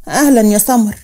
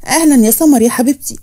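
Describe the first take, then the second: First: Understated, unenthusiastic welcome; cool greeting. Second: Lightly lifted, welcoming greeting; affectionate greeting. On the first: Woman looking her cousin up and down, cool greeting. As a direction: greet her with little enthusiasm. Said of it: "بصت لها من فوق لتحت". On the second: Aunt welcoming her niece, affectionate greeting. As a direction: welcome her fondly, ending on a rise. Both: A narrator's reading.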